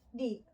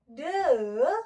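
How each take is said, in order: First: The vowel is a long ee sound. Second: The vowel is a short uh sound. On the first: The next noun begins with a vowel sound. "the dibaca di" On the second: The next noun begins with a consonant sound. "the dibaca the"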